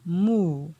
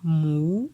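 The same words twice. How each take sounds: First: The syllable is said on a falling tone. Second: The syllable is said on a rising tone. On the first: "pour le ton descendant" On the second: "Pour le ton montant"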